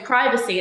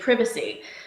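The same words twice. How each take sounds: First: It is said with an American pronunciation. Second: It is said with a British pronunciation. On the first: "here you say privacy" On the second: "in England you say privacy"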